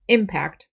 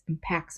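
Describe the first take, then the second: First: The stress is on the first syllable. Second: The stress is on the second syllable. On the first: It is used as a noun. "the noun form, impact, the stress is on the first syllable always" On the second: It is used as a verb. "the verb form is pronounced a little differently with the accent, the stress on the second syllable"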